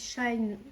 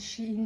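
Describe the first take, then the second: First: The name is said as one syllable, like 'shine'. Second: The name is said as two syllables, 'she-in'. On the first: Some other people say it this way. "il y en a qui disent Shine" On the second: The speaker says it this way. "Moi je dis Shein"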